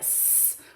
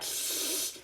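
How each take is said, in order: First: The s sound is a clear hiss. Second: The s sound is slushy, through the sides. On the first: The speaker calls it right. "the S sound" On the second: The speaker calls it wrong. "it comes out through the sides of the mouth"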